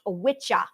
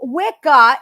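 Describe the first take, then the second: First: The middle consonant is a ch sound. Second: The middle consonant is a k sound. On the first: The speaker calls it right. "It's pronounced witcha" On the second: The speaker calls it wrong. "is being mispronounced"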